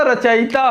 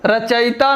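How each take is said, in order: First: रचयिता with short i, racha-yi-tā; correct pronunciation. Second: रचयिता with long ī, racha-yī-tā; wrong pronunciation. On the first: Teacher correcting the vowel, correct pronunciation. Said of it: "रचयिता होता है". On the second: Teacher showing the mistake, wrong pronunciation. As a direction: lengthen the yi of रचयिता. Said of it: "रचयिता नहीं होता". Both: Shown as a demonstration.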